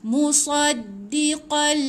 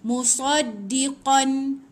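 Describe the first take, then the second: First: The final n merges into the following l. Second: The word ends with a clear n sound. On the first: The speaker calls it right. "Masukkan dekat lam" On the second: The speaker calls it wrong. "dia tak boleh tak boleh bunyi musaddiqan"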